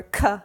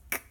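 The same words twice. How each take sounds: First: "k" said loud as "kuh"; a loud "k" with a vowel tacked on; k with added vowel. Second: "k" as a bare voiceless click; pure k sound. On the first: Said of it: "parents want to say k". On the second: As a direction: say "k" with no vowel after it. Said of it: "it's just k". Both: Shown as a demonstration.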